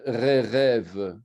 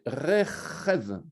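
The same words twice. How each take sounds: First: The r and ch sounds are plain, not guttural. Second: The r and ch sounds are guttural, from the throat. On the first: The speaker calls it wrong. "on ne peut pas dire Rechev" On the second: The speaker calls it right. "Il faut savoir vraiment apprendre à, à gutturaliser les lettres"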